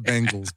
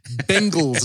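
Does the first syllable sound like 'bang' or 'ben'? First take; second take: bang; ben. First: The first syllable sounds like 'bang'. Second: The first syllable sounds like 'ben'. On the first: The speaker calls it wrong. "not the Bengals" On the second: The speaker calls it right.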